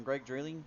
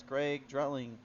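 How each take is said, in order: First: "Dreeling" with a long ee and no t, questioning; Dreeling, unsure retry. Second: "Dretling" said with a t in the middle, slowly; Dretling, first guess. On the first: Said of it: "I'm gonna go with Dreeling on this one". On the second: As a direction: read the name as "Dretling" with a t. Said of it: "Or Dreeling?". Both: Shown as a demonstration.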